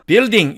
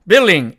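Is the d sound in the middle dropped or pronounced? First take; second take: pronounced; dropped. First: The d sound is clearly pronounced. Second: The d sound is dropped, leaving an l. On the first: "그냥 building 이렇게 읽어도 전혀 문제가 없단" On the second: "드를 삭제해버리고 building 이렇게 발음하기도"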